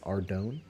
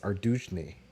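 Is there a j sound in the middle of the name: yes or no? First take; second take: no; yes. First: The name is said without a middle j sound. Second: The name is said with a j sound. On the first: This is how the speaker always said it. The speaker calls it wrong. "I always pronounced it pron- pronounce it Ardone because it made sense" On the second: This is how it is supposedly meant to be said. The speaker calls it right. "apparently it's pronounced Ardujne or something like that"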